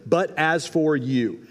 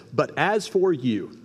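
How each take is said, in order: First: BUT leaned on, each word drawn out; slow emphatic quote. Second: Each word slowed and weighed, FOR held long; slow down and lean on FOR in "for you"; slow emphatic quote. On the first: Preacher repeats the highlighted phrase, slow and deliberate. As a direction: start strong on BUT and crawl through the phrase. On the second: Preacher lingers on the key verse, slow and weighty. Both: Shown as a demonstration. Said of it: "I would do that phrase right there".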